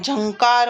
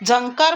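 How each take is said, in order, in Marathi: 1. पहिला व्यंजन तालव्य आहे, त्यात य-सारखा सरकता ध्वनी आहे. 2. पहिला व्यंजन दंत्य आहे, त्यात य-सारखा सरकता ध्वनी नाही. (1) "झंकार म्हणतो" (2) "झंकार म्हणत नाही"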